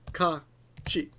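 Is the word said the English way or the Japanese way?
Japanese. It is said as Japanese hankachi. Japanese listeners would understand it. The speaker calls it right. "in Japanese, you would say han Hankachi"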